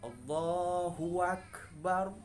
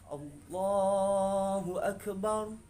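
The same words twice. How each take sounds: First: An extra w sound is added to the phrase. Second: No extra sound or lengthening is added. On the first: The speaker calls it wrong. "Kita menambahkan huruf waw di sini, sudah beda artinya" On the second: The speaker calls it right.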